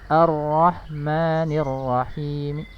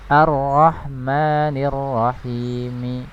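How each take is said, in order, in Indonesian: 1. Vokal akhir setelah m hampir tidak terucap. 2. Vokal akhir setelah m terucap penuh. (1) "Kalau kita baca rom menjadi" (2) "Kalau kita baca penuh satu harokat kan bacanya seperti ini"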